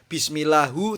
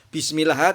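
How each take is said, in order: First: The word ends with a final u vowel. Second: The word ends with no final vowel. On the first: "tidak boleh" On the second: "tidak boleh"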